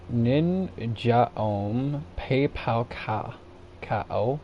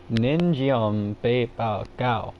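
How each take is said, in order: First: "Nin Jaom Pei Pao Ka" sounded out very slowly in a flat English accent; English pronunciation. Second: "Nin Jiom Bei Bao Gao" slowly, tried with Chinese tones; careful attempt at Chinese pronunciation of "Nin Jiom Bei Bao Gao"; Chinese accent attempt. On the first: Vlogger reading the cough syrup name off the screen, slow English pronunciation. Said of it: "that's my English pronunciation". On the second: Second try at the syrup name, aiming for Chinese accent. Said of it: "try to say it with an accent". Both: Shown as a demonstration.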